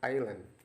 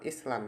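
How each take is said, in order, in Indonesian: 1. Bunyi s diam. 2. Bunyi s terdengar. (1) "Jadi pulau bahasa Inggrisnya island" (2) "Bukan island ya. Island itu tulisannya"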